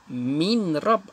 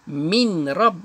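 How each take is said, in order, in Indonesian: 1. Bunyi n dibunyikan dengan jelas sebelum r. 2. Bunyi n dibunyikan dengan jelas sebelum r.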